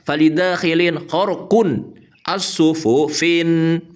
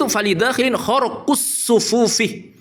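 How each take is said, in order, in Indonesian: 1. Kata-kata itu diakhiri dengan bunyi n tambahan. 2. Kata-kata itu diakhiri vokal biasa tanpa n. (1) "cara membacanya ngaco ngawur" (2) "cara bacanya yang benar itu ... dibaca kasrah tanpa tanwin"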